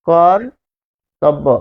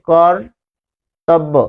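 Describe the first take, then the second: Both takes have the same delivery.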